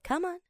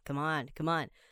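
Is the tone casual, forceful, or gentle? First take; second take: gentle; casual. First: It is said in a gentle, coaxing tone. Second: It is said in a relaxed, offhand tone. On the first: Encouraging a child or pet to come over. "对小朋友我们会用这种语调，我是叫你的那个动物要过来的时候" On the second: Egging a friend on to have a drink. "你可以比较随意一点、随性一点"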